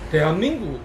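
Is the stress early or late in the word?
late. The stress falls late in the word. "경남 부산은 대한민국 이렇게 얘기해요"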